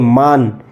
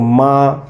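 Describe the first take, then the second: First: The final n is fully pronounced. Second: The vowel is nasalized without a full n. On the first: "जो नून होगा इस बोल इस तरह बोलेंगे मान" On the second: "जो गुन्ना होगा उसको माँ सिर्फ महसूस होगा, नून की आवाज़ आएगी नहीं पूरी"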